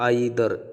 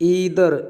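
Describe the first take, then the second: First: The first vowel sounds like 'eye'. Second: The first vowel sounds like 'ee'. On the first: This is the British pronunciation. "ഐദർ എന്നുള്ളത് American British പ്രൊനൗൺസിയേഷനാണ്" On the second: This is the American pronunciation. "ഈദർ എന്നുള്ളത് American പ്രൊനൗൺസിയേഷനാണ്"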